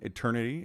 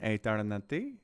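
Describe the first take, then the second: First: It is said with an American accent. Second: It is said with a French accent. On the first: "if you're American" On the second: "Pronounce it like a French person"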